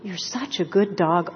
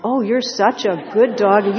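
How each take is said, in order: First: Gentle voice praising a good dog; soothing dog praise. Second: Louder, gushing praise for a pet; gushing dog praise. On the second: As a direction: lay the praise on thick for the dog. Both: Retold or imitated. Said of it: "listening to this voice going".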